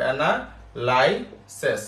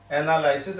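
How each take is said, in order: First: analysis stretched very slowly, each syllable drawn out; slow dictation. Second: Said in the usual way. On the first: Shown as a demonstration. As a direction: spell it out slowly so they can write. (Analysis খুব ধীরে টেনে টেনে বলা) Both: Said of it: "তাহলে এটা কি আসবে?".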